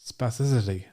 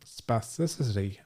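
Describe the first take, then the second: First: The word is said very fast. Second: The word is said at a slower, uneven pace. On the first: The speaker calls it right. "I have to say it really fast to make it sound like it's right" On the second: The speaker calls it wrong. "Even then, I sound like a stroke victim"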